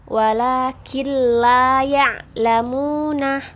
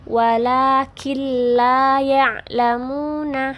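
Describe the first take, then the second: Both takes have the same delivery.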